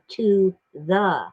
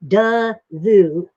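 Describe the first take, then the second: First: The first word is said clearly as 'to'. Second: The first word is reduced to a 'duh' sound. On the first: The speaker calls it right. "is supposed to be to the" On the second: The speaker calls it wrong. "T O does not spell duh"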